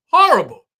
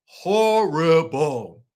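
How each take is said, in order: First: High, loud exclaim of "Horrible."; shouted horrible. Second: "Horrible." stretched out slow and heavy; drawn-out horrible. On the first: Host condemning the cast's friend group, loud outburst. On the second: Host repeating her verdict on the friends, drawn slow. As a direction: drag "Horrible." out slowly, letting it sink in. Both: Real, not acted. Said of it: "I just gotta say it like that".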